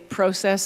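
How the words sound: It has a Canadian or British pronunciation. The speaker calls it wrong. "I would say process"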